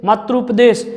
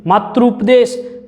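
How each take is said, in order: First: Said in the usual way. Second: Slow, drawn-out demo. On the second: Shown as a demonstration. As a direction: stretch "मातृपदेश," out slowly, syllable by syllable. (धीरे-धीरे खींचकर बोला गया "मातृपदेश") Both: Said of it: "मैं दो से तीन बार बोलता हूँ".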